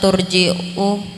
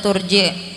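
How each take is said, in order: First: The word ends with a glottal stop sound. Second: The word ends with a long i vowel. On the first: "dengan memakai huruf hamzah pada akhirnya" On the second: "dengan memakai huruf ya pada akhirnya sebagai ganti dari hamzah"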